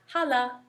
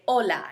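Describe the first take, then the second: First: The word starts with an audible H sound. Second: The word starts with no H sound. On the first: The speaker calls it wrong. "not hala" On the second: The speaker calls it right. "we don't pronounce the H. We say hola"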